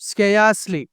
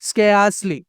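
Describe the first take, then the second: No difference in how they are said.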